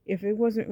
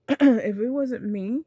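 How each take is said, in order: First: Said in the usual way. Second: Clears throat, then says it louder; louder, insistent restart; firmer restart. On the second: Real, not acted. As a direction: clear the throat and come back firmly.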